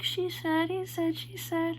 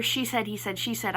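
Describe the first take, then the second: First: High, slow sung phrase; sung, sung song hook. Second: Said in the usual way. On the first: Retold or imitated. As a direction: sing it lightly, like trying out a melody. Imitates singer trying out melody.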